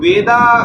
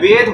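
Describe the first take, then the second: First: The word ends with an added final 'a' vowel. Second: The word ends on the consonant without a vowel. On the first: The speaker calls it wrong. "वेदा शब्द नहीं है" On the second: The speaker calls it right. "वेद होता है"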